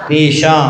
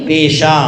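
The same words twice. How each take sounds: The two takes are said the same way.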